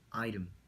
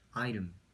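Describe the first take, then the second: Both takes have the same delivery.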